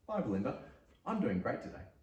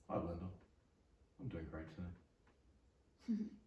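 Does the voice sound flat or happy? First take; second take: happy; flat. First: The voice sounds happy and positive. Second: The voice sounds flat and unenthusiastic. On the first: The speaker is genuinely doing well. "It's happy. / Yeah. / Positive" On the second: The speaker does not really mean it. "Doesn't have the same effect, does it?"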